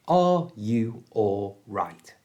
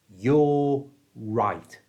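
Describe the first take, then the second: First: Every word is said fully and separately. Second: The words are squashed together without any R. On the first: The speaker calls it wrong. "we don't pronounce it like that" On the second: The speaker calls it right. "we simply don't pronounce the R at all, and we squash the U and all right together"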